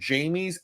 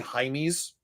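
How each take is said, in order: First: The name is said in an Americanized way. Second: The name is said in its original way. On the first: The speaker calls it wrong. "but us Americans, we don't pronounce it that way" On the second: The speaker calls it right. "It's actually Jaime's"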